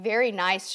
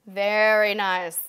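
First: Said in the usual way. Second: "Very nice" stretched slowly, savoring it; drawn out. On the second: Shown as a demonstration. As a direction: linger on "Very nice" with slow praise.

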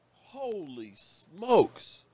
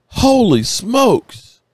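First: Slow, much softer, awestruck breath of disbelief; stunned hush. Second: Amazed exclamation. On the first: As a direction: let it fall away almost to nothing. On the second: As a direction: belt it out in awe. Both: Real, not acted. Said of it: "I'm sorry if I'm a little emotional".

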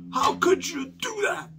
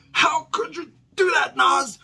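First: Much higher, slow, pleading whine; hammed-up heartbroken fan asking why; mock dismayed whine. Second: Much higher and louder, hammed-up sobbing; mock crying wail. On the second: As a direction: wail it like a betrayed fan, fake tears. Mock heartbroken fan, wailing.

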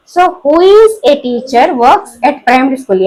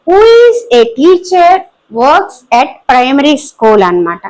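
First: Slow repeat. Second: Slow dictation. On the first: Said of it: "example repeated for class". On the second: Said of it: "teacher dictates example sentence". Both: Shown as a demonstration.

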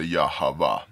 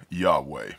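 First: Yahweh said "yah-hah-VAH", three syllables; alternative pronunciation. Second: Yahweh said "YAH-way", two syllables; alternative pronunciation. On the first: Showing what others say, Yahweh as yah-hah-vah. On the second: Showing what other people say, Yahweh as YAH-way. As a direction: say Yahweh with a "way" ending. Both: Shown as a demonstration. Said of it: "Other people say".

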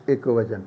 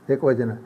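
No difference in how they are said.

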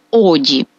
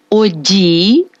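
First: Оді stressed on the first О, short falling І; low оді with stress on the first vowel; unstressed final І. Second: Оді with a long stressed final І, rising; оді stressed on the last vowel, drawn out. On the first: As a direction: lean on О in оді, drop the final І. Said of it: "з ненаголошеним І". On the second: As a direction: lean on the doubled І ending оді. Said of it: "З наголошеним звуком І". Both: Shown as a demonstration.

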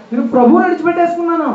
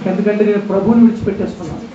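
First: Higher and faster on the repeat; anguished repeat. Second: Said in the usual way. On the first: Shown as a demonstration. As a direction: push ప్రభువుని up high, rushing the line. (ఎత్తైన స్వరంతో, వేగంగా బాధగా)

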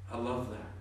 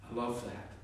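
No difference in how they are said.

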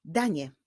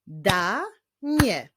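First: Said in the usual way. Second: "Da-nie" in two separate beats, pause between; "Da-nie" syllable by syllable; split into syllables. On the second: Shown as a demonstration. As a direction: break "Da-nie" after "Da", drawing it out. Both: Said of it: "składa się z dwóch sylab".

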